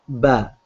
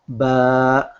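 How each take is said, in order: First: The vowel is short, held for one beat. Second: The vowel is long, held for two beats. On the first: "So this is just one stretch, one length" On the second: "you will read as ba, alif, fatha, ba"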